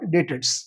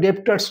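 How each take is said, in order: First: No consonant is sounded before the t. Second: A consonant is sounded before the t. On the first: The speaker calls it right. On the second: The speaker calls it wrong. "উচ্চারণটা ডেপ্টার্স নয়"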